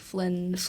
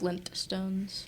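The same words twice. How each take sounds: First: The T sound in the middle is dropped. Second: The T sound in the middle is pronounced. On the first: The speaker calls it wrong. "So we say like Flintstones" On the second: The speaker calls it right. "but it should be Flintstones"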